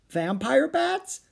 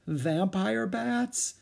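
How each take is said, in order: First: Very high, slow, rising question; girlish alarm, drawn out and pitched way up; alarmed disbelief. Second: Slow, rising, higher-pitched dread; uneasy disbelief. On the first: Annie echoing Jack about the bats, alarmed. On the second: Jack reading about bats, feeling faint, uneasy. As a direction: stretch it out as the alarm rises. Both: Acted.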